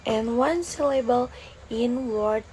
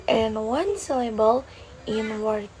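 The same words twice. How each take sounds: The two takes are said the same way.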